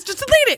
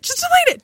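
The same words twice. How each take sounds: First: Panicked plea. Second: Higher, more frantic plea; more desperate plea. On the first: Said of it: "repeated plea". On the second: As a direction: beg harder the second time. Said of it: "repeated higher". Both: Retold or imitated.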